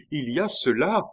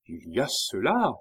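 First: High, loud repeated cry; insistent exclamation. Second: A fairly contained first exclamation; mild exclamation. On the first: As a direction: cry out, pitch and volume jumping up. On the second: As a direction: cry out with some restraint. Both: A narrator's reading. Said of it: "s'écria-t-il".

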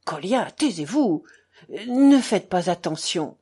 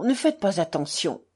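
First: Mildly impatient, firmer repeat; some impatience. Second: Quick, even dismissal; brisk reassurance. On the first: Alyosha silences Kolia and placates the doctor, somewhat impatiently. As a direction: insist with a touch of impatience. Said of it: "répéta-t-il avec quelque impatience". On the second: Alyosha tells the doctor to ignore the schoolboy, briskly. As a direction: wave it away briskly, at an ordinary volume. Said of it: "dit vivement Alyosha". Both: A narrator's reading.

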